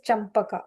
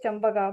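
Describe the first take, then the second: First: The p sound is sharp and crisp. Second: The p sound is soft and weak. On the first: This is the original correct pronunciation. The speaker calls it right. "its actual thing is Champaka. Okay, that pa has sharp pa" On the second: This is the regional everyday pronunciation. The speaker calls it wrong. "in Malayalam we'll say Champaka"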